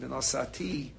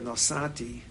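First: The stress falls on the last syllable. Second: The stress falls on the second-to-last syllable. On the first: The action is to happen in the future. "is future" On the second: The action happened in the past. "is past tense"

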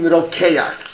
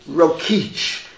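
First: The name is given its Yiddish pronunciation. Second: The name is given its English pronunciation. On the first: "and in Yiddish" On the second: "how do they pronounce it in English?"

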